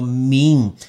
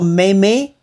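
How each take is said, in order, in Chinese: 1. 它是一个音节，以 'm' 结尾。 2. 它是两个音节，元音是 'ay'。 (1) "叫做meme" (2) "你不要说妹妹"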